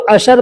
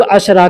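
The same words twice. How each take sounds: First: अशर ending on the r; short variant ending. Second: अशरा with a final long aa; long aa ending. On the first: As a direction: say अशर without a final long aa. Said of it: "बहुत से लोग अशर कहते हैं". (अंत में आ के बिना अशर) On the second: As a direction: end अशरा on an open aa. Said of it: "बहुत से लोग अशरा कहते हैं". (अंत में लंबे आ वाला अशरा) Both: Shown as a demonstration.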